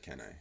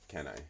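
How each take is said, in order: First: It sounds like a hesitant, trailing question. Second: It sounds like a forceful exclamation, not a question.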